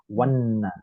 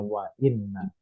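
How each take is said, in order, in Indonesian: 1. Wa langsung menyambung ke inna tanpa hamzah. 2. Hamzah memisahkan wa dari inna. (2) "Harus mampir dulu ke hamzahnya"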